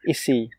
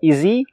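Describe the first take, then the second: First: The middle sound is an unvoiced, hissing s. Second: The middle sound is a voiced, buzzing z. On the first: The speaker calls it wrong. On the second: The speaker calls it right.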